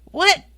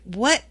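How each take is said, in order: First: High, loud stunned what; loud, high yelp of total shock. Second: Mild confused what, said almost plainly; a small baffled question; puzzled what. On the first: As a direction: blurt it out in disbelief. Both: Retold or imitated. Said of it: "And I'm like".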